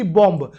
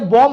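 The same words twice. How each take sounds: First: The word ends with an audible b. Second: The word ends on m, b silent. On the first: The speaker calls it wrong. "ना कि बॉम्ब" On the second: The speaker calls it right. "ये बॉम्ब होता है"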